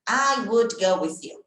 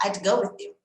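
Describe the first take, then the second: First: "I would" as two full, separate words; careful "I would", each word sounded out; uncontracted form. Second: "I'd" run together as one syllable; "I would" squeezed down to "I'd"; contracted natural speech. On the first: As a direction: slowly give "I would" in full, without contracting. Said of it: "Raramente você vai ouvir alguém falando". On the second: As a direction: say "I'd" quickly linked into the phrase, like a fluent speaker. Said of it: "Ele vai falar". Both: Shown as a demonstration.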